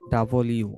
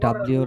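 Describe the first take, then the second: First: It is said as two separate words. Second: It is squeezed into one blended word. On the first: The speaker calls it right. "আমরা কি ডাবল ইউ" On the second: The speaker calls it wrong. "এটা ডাব্লিউ না"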